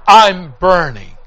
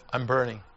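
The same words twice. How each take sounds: First: Loud, drawn-out retold cry; anguished cry. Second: Low, soft, grave repeat; hushed echo. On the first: Preacher echoing dying neighbor's last words, loud anguished cry. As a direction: cry it out slowly and loudly. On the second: Retold or imitated. Preacher echoing dying neighbor's last words, hushed and low. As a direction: drop it low and quiet.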